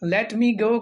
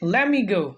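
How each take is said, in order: First: The words 'let me' are said in full. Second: The words 'let me' are run together and shortened.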